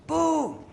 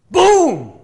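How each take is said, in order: First: High-pitched echo, less forceful; kids echoing. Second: Huge high shouted boom; hyped-up pastor. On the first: Kids repeating after the pastor, high echo. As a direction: answer back high like a kid. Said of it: "You know, kids". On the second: Pastor leading excited kids in a chant, big shout. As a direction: explode on one high, loud word. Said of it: "And he goes". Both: Acted.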